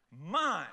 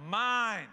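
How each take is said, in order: First: Put-on toddler repeating it. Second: First "Mine" a bit louder, grabby; bossy little kid hoarding the snack, louder; toddler claiming it. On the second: Retold or imitated. Grandkid pulling the goldfish bowl away, grabby and loud. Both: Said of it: "what will they say?".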